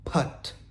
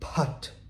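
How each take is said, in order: No difference in how they are said.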